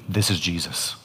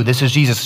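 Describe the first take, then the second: First: Hushed realisation. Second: Said in the usual way. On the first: Retold or imitated. Woman realising in her vision who speaks, hushed and low. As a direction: drop low and soft, almost under the breath.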